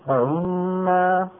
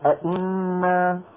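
First: The second hamza is softened and eased. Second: The second hamza is a full glottal stop. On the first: The speaker calls it right. "همزات مكسورة مسهلة" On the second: The speaker calls it wrong. "ولا أئنا"

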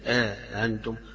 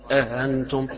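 First: A long vowel separates the softened second glottal stop. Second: No long vowel comes before the softened second glottal stop. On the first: "بالمد أو بالألف وبتسهيل الهمزة الثانية" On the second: "بتسهيل الهمزة الثانية من غير حرف الألف بين الاثنين"

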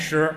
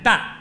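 First: The word is read as shí. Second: The word is read as dàn. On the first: It means stone. "在称粮食的时候不念石" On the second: It is a unit for weighing grain. "念担。一担两担的担"

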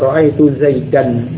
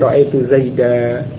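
First: The name ends on an n sound. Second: The name ends on a short a vowel. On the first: This is the form used without pausing. "yang asalnya ra'aitu Zaidan" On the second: This is the form used when pausing. "tetapi ra'aitu Zaida"

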